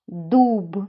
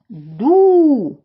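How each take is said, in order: First: The word ends with its final sound. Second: The word ends without its final sound. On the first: The speaker calls it right. "Скажіть їх разом зі мною правильно" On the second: The speaker calls it wrong. "Два слова я сказала без кінцевого звуку"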